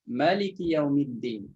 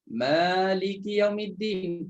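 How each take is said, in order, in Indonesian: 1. Vokal pertama 'ma' dibaca pendek. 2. Vokal pertama 'ma' dibaca panjang. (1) "Ada lain baca" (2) "Yang kita baca Maliki Yaumiddin panjang"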